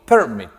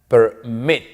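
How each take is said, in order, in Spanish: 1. El acento está en la primera sílaba. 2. El acento está en la última sílaba. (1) "Yo no digo permit" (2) "la mayor fuerza de voz está al final"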